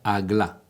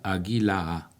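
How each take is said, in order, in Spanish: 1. Se dice como dos sílabas cortas. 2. Las vocales extra lo convierten en tres sílabas. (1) "que se pronuncia Agla" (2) "Con las vocales naturales se pronunciaría"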